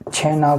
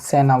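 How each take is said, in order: First: The word begins with a ch sound. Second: The word begins with an s sound. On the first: This is the standard form. "छ को स बोलेंगे" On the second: This is how Chhattisgarhi speakers say it. "छैना को सेना बोलते हैं"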